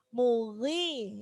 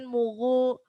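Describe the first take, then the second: First: The gh sound is lighter, its heaviness reduced. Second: The gh sound is fully heavy and dark. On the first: The speaker calls it right. "karena dia kasro maka ketebalannya berkurang" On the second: The speaker calls it wrong. "Jangan mughu"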